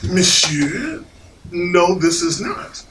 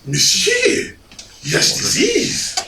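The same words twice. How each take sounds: First: Slow, measured objection; firm contradiction. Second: High, slow French waiter insistence; pompous French accent. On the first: Diner disputing the dessert with waiter, firm. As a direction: correct the waiter, firmly and slowly. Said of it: "And I said". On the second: French waiter contradicting a diner, pompous accent. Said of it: "in his pompous accent". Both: Retold or imitated.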